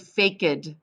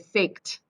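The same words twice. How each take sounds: First: The ending is not a plain t sound. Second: The word ends in a plain t sound. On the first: The speaker calls it wrong. "We don't say faked" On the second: The speaker calls it right. "we say faked"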